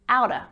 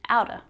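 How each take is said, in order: First: The word 'of' shrinks to a schwa. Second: The same.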